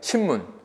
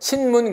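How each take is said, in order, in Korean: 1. 첫 음절은 m 소리로 끝나요. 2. 첫 음절은 n 소리로 끝나요. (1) "쉽게 발음하려보다는 그렇게 되죠" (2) "신문 그래야 되는데"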